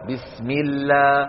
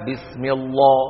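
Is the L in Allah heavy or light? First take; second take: light; heavy. First: The L in Allah is thin and light. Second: The L in Allah is thick and heavy. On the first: The speaker calls it right. "بكسرة فإنهم يبقون اللام مرققة" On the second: The speaker calls it wrong. "ولا يقولون"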